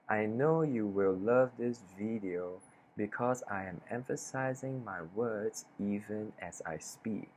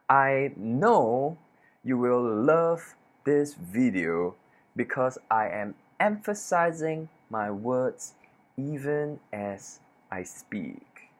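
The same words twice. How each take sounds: First: The words are said flatly, without emphasis. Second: Key words are said with strong emphasis.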